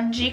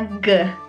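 First: The g is soft, like a j sound. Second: The g is hard, like in gatto. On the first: The speaker calls it wrong. "non si pronuncia G come in italiano" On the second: The speaker calls it right. "ma si pronuncia G, come in gatto"

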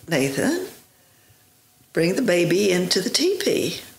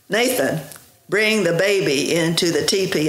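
First: It is said in an ordinary, plain voice. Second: It is said in a forceful, commanding voice.

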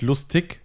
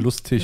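First: The ending is said with a hard k sound. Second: The ending is said with a soft ich sound. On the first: The speaker calls it wrong. "Nicht lustig" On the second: The speaker calls it right. "sondern lustig"

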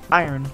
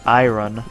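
First: The word is said as eye-urn, no clear r-o. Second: The word is said as eye-ron, following spelling. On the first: The speaker calls it right. "it's pronounced I-Earn" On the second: The speaker calls it wrong. "if you say iron, that's you're dumb. That's not how you say it"

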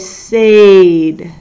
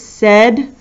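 First: It is sounded out to match its letters. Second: It is said normally, rhyming with bed. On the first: This helps to remember the spelling. "when you're thinking to spell it, you say said" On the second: This is how the word is spoken. "We pronounce it said"

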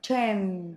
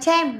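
First: The final m sound is clearly pronounced. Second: The final m sound is weak or missing. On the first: The speaker calls it right. "No, we say tram. Tram. Mờ ạ" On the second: The speaker calls it wrong. "Đừng đọc là tram"

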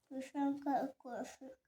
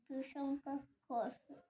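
Both takes have the same delivery.

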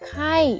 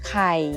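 First: The syllable is said with a falling tone. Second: The syllable is said with a low tone. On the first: "ไข่เสียงโท" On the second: "ไข่เสียงเอก"

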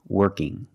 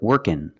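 First: The word ends in an 'ng' sound. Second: The word ends in an 'n' sound. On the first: "It's the sound mm" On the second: "you hear workin ... That's also correct pronunciation"

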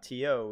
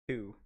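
First: It is spelled out as two letters. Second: It is said as one short word. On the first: The speaker calls it wrong. "is not T-O" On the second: The speaker calls it right. "it's two"

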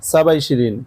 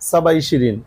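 Both takes have the same delivery.

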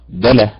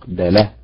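First: The stress is on the first syllable. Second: The stress is on the second syllable. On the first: The speaker calls it right. "فتنطق دله فعل" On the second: The speaker calls it wrong. "ولا تنطق دله فعل"

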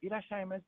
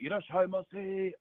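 First: It is said softer, like a cute girl. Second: It is said harder, like an older man.

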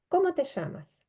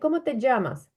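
First: The double L is said as an sh sound. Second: The double L is said as a dzh sound. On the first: This is how it is said in Argentina or Uruguay. "в Аргентині чи в Уругваї ця подвійна Л читається як Ш" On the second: This is how some listeners hear other speakers say it. "українське вухо чує у іншого носія на місці оцього, що я кажу «ї», «дж»"

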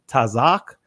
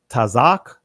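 Both takes have the same delivery.

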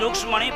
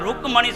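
First: The middle consonant is said as 'ksh'. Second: The middle consonant is said as plain 'k'. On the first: This is how people commonly say the name. The speaker calls it wrong. "આપણે બધા બોલી છીએ રૂક્ષ્મણી" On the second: This is the form found in the original text. The speaker calls it right. "ત્યાં રૂકમણી શબ્દ છે. રૂક ક છે ક"

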